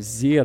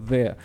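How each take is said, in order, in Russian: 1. Начинается с жужжащего звука 'z'. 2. Начинается с мягкого звука: язык между зубами. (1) "он говорит там «зе»" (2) "межзубный там «the»"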